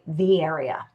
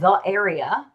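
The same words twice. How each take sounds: First: 'The' links smoothly into 'area' without a break. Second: A glottal stop separates 'the' from 'area'. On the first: The speaker calls it right. "you would say the area" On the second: The speaker calls it wrong. "which has that kind of glottal stop in it"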